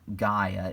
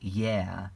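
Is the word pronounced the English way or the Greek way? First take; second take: English; Greek. First: The word has an English-style pronunciation. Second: The word has a Greek-style pronunciation. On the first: The speaker calls it wrong. "it's not Gaia" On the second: The speaker calls it right. "that's the Greek pronunciation"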